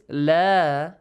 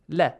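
First: The vowel is held long for two counts. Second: The vowel is cut short to one count. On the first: The speaker calls it right. "long vowel, with alif" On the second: The speaker calls it wrong. "you don't have to read it with la"

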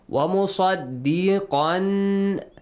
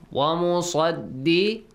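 First: The word ends with a clear n sound. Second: The final n merges into an l sound. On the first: "Qan plus lam"

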